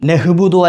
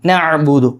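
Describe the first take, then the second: First: A breathy h sound follows the first vowel. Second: A tight throat sound follows the first vowel. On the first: The speaker calls it wrong. "നഹ്ബുദു അല്ല" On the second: The speaker calls it right. "ഐൻ അവിടെ വരണം"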